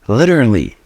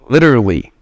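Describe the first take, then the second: First: It is pronounced the way a native speaker would. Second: The same.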